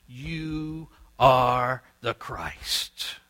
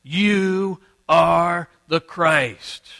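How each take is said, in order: First: Very slow, drawn-out declaration; declaring loudly. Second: Loud, ringing, very slow proclamation; declaring loudly. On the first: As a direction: proclaim it word by word, stretched out. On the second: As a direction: proclaim each word at full force, drawn out. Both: Acted. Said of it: "declaring loudly".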